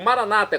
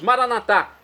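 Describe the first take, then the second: First: The stress is on the second-to-last syllable. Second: The stress is on the last syllable. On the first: This is how evangelicals and Protestants say it. "como dizem nossos irmãos das comunidades separadas" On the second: This is how Catholics say it. "como pronunciamos nós católicos"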